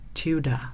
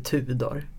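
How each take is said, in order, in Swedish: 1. Namnet uttalas på engelska sätt. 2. Namnet uttalas på svenska sätt. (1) "du heter Tudor" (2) "du heter inte Tudor"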